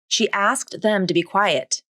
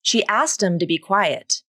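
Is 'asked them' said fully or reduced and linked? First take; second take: fully; reduced. First: Each word is said fully and separately. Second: The words are reduced and linked together. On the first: "the full pronunciation of asked" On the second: "according to the rule of three"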